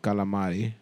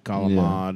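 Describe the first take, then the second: First: The word ends with a full final vowel. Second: The word ends on a consonant, vowel dropped. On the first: This is how Greek people say it. The speaker calls it right. "They say no. Calamari" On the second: This is not how Greek people say it. The speaker calls it wrong. "We don't go God, calamad"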